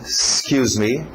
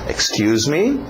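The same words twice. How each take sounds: First: The word starts directly on the 's' sound. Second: The opening 'ex' sound is fully pronounced.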